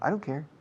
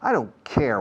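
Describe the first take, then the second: First: It is said in a soft, casual tone. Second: It is said in a strong, forceful tone. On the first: The choice does not matter to the speaker. "In a soft tone, I don't care is the same as it doesn't matter" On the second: The speaker is harshly indifferent to the other person. "if you speak with a strong intonation"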